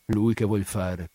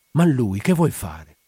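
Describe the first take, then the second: First: Slow, subdued echo of "Lui che vuol fare"; brooding echo. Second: Louder, slow, drawn-out question on "fare"; insistent question. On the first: Spina echoing the widow's question, brooding on "Lui". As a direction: repeat "Lui che vuol fare" slowly, without the push. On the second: Widow asking Spina about her man, insistent question on "fare". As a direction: press the question, stretching out "che vuol fare". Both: Acted.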